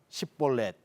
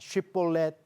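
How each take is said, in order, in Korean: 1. 단어는 평범한 s 소리로 시작합니다. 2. 단어는 sh 소리로 시작합니다. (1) "에브라임 사람은 쉽볼렛이라는 발음을 못하고 십볼렛이라고 발음을 하기 때문에" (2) "쉽볼렛이라고 발음을 하는, 하면 길르앗 사람이고"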